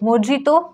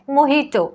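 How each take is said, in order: First: The middle consonant is a 'j' sound. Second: The middle consonant is an 'h' sound. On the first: The speaker calls it wrong. "मोजितो चुकीचं आहे" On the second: The speaker calls it right. "Next आहे महिटो और मोहिटो"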